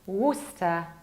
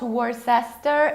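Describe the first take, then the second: First: The middle 'ce' syllable is skipped. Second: The middle 'ce' syllable is pronounced. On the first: The speaker calls it right. "We don't pronounce middle C E" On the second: The speaker calls it wrong. "It's not Worcester"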